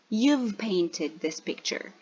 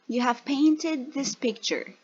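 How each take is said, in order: First: The word have is contracted onto the pronoun. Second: The word have is said as a full word. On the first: "then the short form" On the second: "First the full form"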